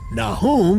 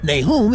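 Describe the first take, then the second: First: The name is pronounced in a Hebrew manner. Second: The name is pronounced in an Americanized manner. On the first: "is the Hebrew pronunciation" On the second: "is more uh, Americanized"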